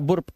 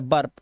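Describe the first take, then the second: First: The vowel sounds like a short 'oo'. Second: The vowel sounds like a neutral 'er'. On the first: The speaker calls it wrong. "इसे बुर्प मत पढ़ देना" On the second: The speaker calls it right. "ये बर्प है"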